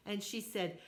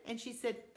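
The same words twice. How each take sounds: The two takes are said the same way.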